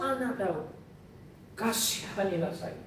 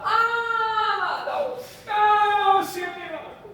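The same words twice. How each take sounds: First: Softer, low begging; kneeling woman quietly begs Jesus; humble plea. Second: High, sung-out wail breaking into a shout; a desperate mother begging Jesus; crying plea. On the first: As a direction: plead softly on your knees. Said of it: "Dan dia mengatakan". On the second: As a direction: cry out for mercy in anguish. Woman cries out to Jesus. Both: Acted.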